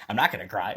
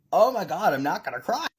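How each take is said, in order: First: Choked, laughing through tears; holding back tears. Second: Holding back tears. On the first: Maker tells viewers she won't cry, laughing tearfully. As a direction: fight the tears and laugh them off. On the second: Maker thanks viewers, fighting tears. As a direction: voice catching, pitched up. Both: Real, not acted.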